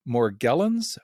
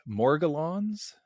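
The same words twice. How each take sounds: First: Morgellons with hard g, stressed on GEL; trying a pronunciation. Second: Morgellons drawn out slowly, stressed on MOR, rising; alternative pronunciation. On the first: Interviewer unsure of the name, trying "Morgellons" as mor-GELL-ons. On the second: Interviewer asking guest about the name, slow questioning "MOR-guh-lons" for Morgellons. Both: Shown as a demonstration. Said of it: "how do you pronounce it".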